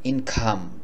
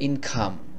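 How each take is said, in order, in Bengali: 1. k ধ্বনিটি শ্বাসযুক্ত, বাতাসের একটু ফুঁ থাকে। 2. k ধ্বনিটি শ্বাসযুক্ত, বাতাসের একটু ফুঁ থাকে।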